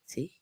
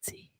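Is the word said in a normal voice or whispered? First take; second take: normal; whispered. First: It is said in a normal voice. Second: It is said in a whisper. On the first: The speaker calls it wrong. "I should have whispered it" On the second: The speaker calls it right. "you whisper it?"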